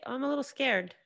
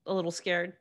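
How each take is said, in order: First: High, mocking little voice; mocking whine. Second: Said in the usual way. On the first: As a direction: mimic a dismissive critic, whiny and high. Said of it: "not a legitimate excuse to just say". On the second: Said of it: "I have every right to be".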